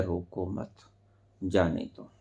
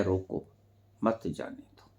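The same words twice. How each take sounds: First: "रोको मत" as one phrase, a pause, then "जाने दो"; pause after मत. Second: "रोको", then a pause, then "मत जाने दो" as one phrase; pause after रोको. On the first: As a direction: join "मत" to "रोको", break before "जाने दो". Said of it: "और ऐसे भी कहा जा सकता है". ("रोको मत" एक साथ, फिर विराम, फिर "जाने दो") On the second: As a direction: break right after "रोको", keep "मत जाने दो" together. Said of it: "इसको ऐसे भी कहा जा सकता है". ("रोको" के बाद विराम, फिर "मत जाने दो" एक साथ) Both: Shown as a demonstration.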